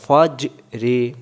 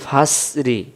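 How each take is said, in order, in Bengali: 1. মাঝের ব্যঞ্জনটি ঠোকর খাওয়া প্রতিধ্বনি নিয়ে ছাড়া হয়। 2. মাঝের ব্যঞ্জনটি z-এর মতো মৃদু গুনগুন করে। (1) "জিম অক্ষরটা কলকলা" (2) "তখন জা অথবা জাল অক্ষর উচ্চারণ হবে"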